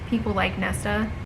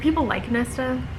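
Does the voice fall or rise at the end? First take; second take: fall; rise. First: The voice falls at the end like a statement. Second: The voice rises at the end like a question. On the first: It states something as a fact. "I'm not asking. I'm saying" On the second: It sounds like asking something. "I know that sounded like a question"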